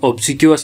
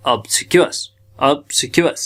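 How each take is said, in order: First: Obsequious read as written, ob-si-kwi-us; teacher shows the common misreading of obsequious; wrong reading. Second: Obsequious said ab-si-kia, the way it is really said; teacher corrects obsequious to ab-si-kia; correct pronunciation. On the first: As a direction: say obsequious the naive way, every letter read. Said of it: "लेकिन है असल में obsequious". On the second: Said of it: "है असल में". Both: Shown as a demonstration.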